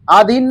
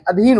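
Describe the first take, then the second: First: आधीन with a long opening aa; wrong pronunciation. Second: अधीन with a short opening a; correct pronunciation. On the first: Teacher shows students the faulty word, आधीन with long first aa. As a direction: say आधीन, starting on a drawn-out aa. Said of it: "नहीं". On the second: Teacher corrects the word for students, अधीन with short first a. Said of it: "होता है". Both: Shown as a demonstration.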